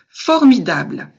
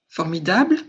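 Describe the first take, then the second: First: The stress falls on the first and last syllables. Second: The stress falls on the last syllable only. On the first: It adds insistence and expressiveness. "un accent d'insistance, d'expressivité à la fois sur la première et sur la dernière syllabe" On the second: It is the neutral, basic way of saying it. "j'accentue sur la dernière syllabe"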